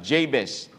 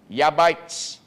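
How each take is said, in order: First: The name begins with a J sound. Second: The name begins with a Y sound. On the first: "in English, it is Jabez" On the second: "in Hebrew, it is pronounced Yabites"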